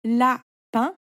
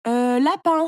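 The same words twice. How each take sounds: First: "Lapin" as la, pause, pin; "Lapin" in two separate beats, rising on pin; split into syllables. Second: Louder exclaimed answer, after a hesitant euh; blurted storybook exclamation; crying out. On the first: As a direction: break "Lapin" in two, lifting the last syllable. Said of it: "tu coupes le mot en petites parties". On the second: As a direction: call the answer out. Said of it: "s'écria Léo". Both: A narrator's reading.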